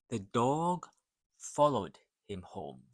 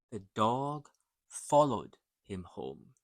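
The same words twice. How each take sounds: The two takes are said the same way.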